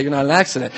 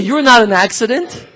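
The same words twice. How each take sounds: First: Said in the usual way. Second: Emphatic YOU'RE NOT AN ACCIDENT, pitched up and driven home. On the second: Shown as a demonstration. Preacher insisting to the congregation that nobody is accidental, emphatically. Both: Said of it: "You gotta say it emphatically".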